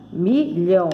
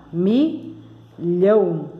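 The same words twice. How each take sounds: First: MILHÃO in two short syllables. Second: MILHÃO very slowly, with a long gap between its two syllables. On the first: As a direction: lightly split "milhão" in two. ("milhão" em duas sílabas curtas) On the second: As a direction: stretch and separate both halves of "milhão". ("milhão" bem devagar, com pausa entre as sílabas) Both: Shown as a demonstration. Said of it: "tem duas sílabas a palavra".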